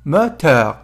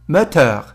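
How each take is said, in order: Both takes have the same delivery.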